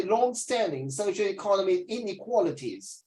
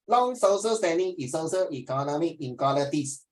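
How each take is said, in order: First: "long-standing socioeconomic inequalities" said in careful British English; British pronunciation demo. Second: "Long social standing is social economic inequalities" slurred together the Singlish way; Singlish imitation. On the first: Teacher showing the student how to say it the British way. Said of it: "You should say". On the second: Teacher mimicking the student's Singlish reading to correct him. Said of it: "that is Singapore English". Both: Shown as a demonstration.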